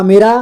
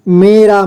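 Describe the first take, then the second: First: Said in the usual way. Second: "मेरा" drawn out as me-raa; beginner's reading of "मेरा" as me, raa; sounded out by syllable. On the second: Shown as a demonstration. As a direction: stretch both syllables of "मेरा". Teacher sounds out, then reads whole.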